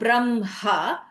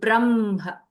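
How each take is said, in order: First: The h is strongly emphasized from the throat. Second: The h is light and comes from the chest. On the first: The speaker calls it wrong. "that ha has a kantya quality" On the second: The speaker calls it right. "then it is a chesty ha"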